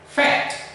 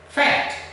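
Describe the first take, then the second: Both takes have the same delivery.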